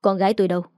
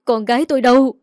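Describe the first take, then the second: First: Calm, restrained asking; gentle question. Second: Loud, desperate shout of "Con gái tôi đâu"; distraught mother demanding her daughter; frantic cry. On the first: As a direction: ask mildly, without raising your voice. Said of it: "nhẹ nhàng hỏi ông Vũ". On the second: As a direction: cry out as if losing your voice. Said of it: "Bà nói là cả giọng đi". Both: A narrator's reading.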